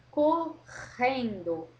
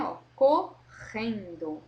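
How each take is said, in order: First: Correndo slow, the RR a long rasp in the throat; strong throat R. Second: Correndo said slowly and louder, RR rasped from the throat; strong throat R. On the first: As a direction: stretch correndo, guttural RR. (correndo com o R R forte na garganta) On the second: (correndo devagar, R R raspado na garganta) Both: Shown as a demonstration. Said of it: "O R, ele mexe lá na garganta".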